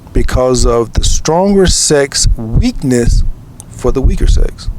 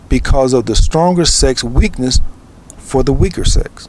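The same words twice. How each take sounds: First: It is said slowly. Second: It is said fast.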